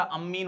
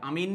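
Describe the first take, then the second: First: अमीन said with a held double m, am-meen; अमीन with the m lengthened and doubled. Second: अमीन said with a short single m, a-meen; अमीन with a quick plain m, the wrong form. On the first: Teacher shows students the right form, held double m. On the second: Teacher shows students the wrong form, short single m. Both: Shown as a demonstration. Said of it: "ध्यान रखना यहाँ double एम आता है".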